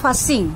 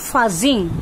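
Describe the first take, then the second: First: The middle consonant is a hissing s sound. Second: The middle consonant is a buzzing z sound. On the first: The speaker calls it right. "উচ্চারণটা হবে ফাসিং" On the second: The speaker calls it wrong. "Don't say ফাজিং"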